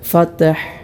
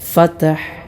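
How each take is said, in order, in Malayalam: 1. t ശബ്ദം പ്രതിധ്വനിക്കുന്ന ഒരു കുതിപ്പോടെ അവസാനിക്കുന്നു. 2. t ശബ്ദം പ്രതിധ്വനിക്കുന്ന ഒരു കുതിപ്പോടെ അവസാനിക്കുന്നു.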